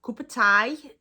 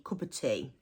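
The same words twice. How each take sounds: First: "tea" said like "tie", louder. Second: Said in the usual way. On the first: Shown as a demonstration. Showing how locals say "tea", "tie" sound. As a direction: stress "tea" as a broad "tie". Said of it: "Tea, so the letter T". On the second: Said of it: "tea means tea".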